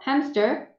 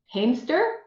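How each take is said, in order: First: The first vowel is short, as in fat. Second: The first vowel is long, as in cake. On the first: The speaker calls it right. "Short vowel" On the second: The speaker calls it wrong. "if it was a long vowel, what would it sound like?"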